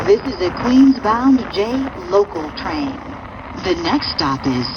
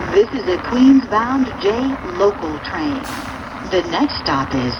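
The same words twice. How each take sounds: The two takes are said the same way.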